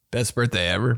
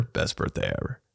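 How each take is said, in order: First: Said in the usual way. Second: Whispered, almost breathless echo; hushed unvoiced aside; whispered repeat. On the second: Shown as a demonstration. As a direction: breathe it again softly to yourself. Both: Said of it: "I said it, bro".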